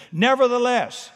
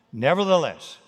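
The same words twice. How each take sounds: First: Nevertheless punched higher and louder; emphatic Nevertheless. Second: Said in the usual way. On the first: Shown as a demonstration. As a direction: hit Nevertheless hard, defiant. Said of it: "I'm exhausted". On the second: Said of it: "Peter acts on Jesus' words".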